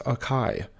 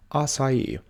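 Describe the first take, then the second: First: Acai said uh-KAI, two syllables; common mispronunciation. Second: Acai said ah-sah-EE, three syllables; correct pronunciation. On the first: Teacher showing viewers the wrong way, demo. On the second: Teacher showing viewers the right way, clear and careful. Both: Shown as a demonstration. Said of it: "often mispronounced as acai".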